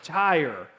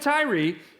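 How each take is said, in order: First: The name is said like the word tire. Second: The name is said unlike the word tire. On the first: Others say this is the correct pronunciation. The speaker calls it right. "It's called tire" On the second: This is the speaker's habitual pronunciation. The speaker calls it wrong. "I'm going to stick with Tyre, even if I'm saying it wrong"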